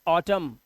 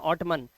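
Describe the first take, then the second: First: The word ends on the m sound. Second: The word ends with an n sound. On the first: The speaker calls it right. "इसे पढ़ेंगे ऑटम" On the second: The speaker calls it wrong. "इसे ऑटमन मत पढ़ना"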